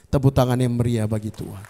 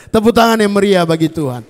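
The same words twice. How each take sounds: First: Said in the usual way. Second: Louder call to applaud, "tangan" ringing; rally the crowd to clap; rousing call. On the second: Real, not acted. Preacher calling the congregation to loud applause.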